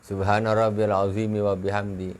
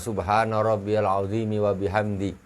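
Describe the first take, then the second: Both takes have the same delivery.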